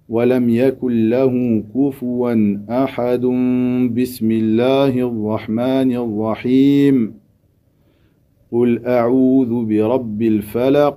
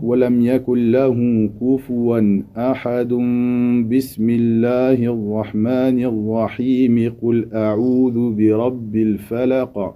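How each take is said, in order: First: It runs through ahad, pausing only after rahim. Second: Everything runs together with no pause. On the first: The basmala is joined to the previous surah's end. The speaker calls it wrong. "lier al-basmala à la fin de la sourate passée en s'arrêtant à celle-ci" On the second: Everything is joined together. The speaker calls it right. "Ici tu as tout lié"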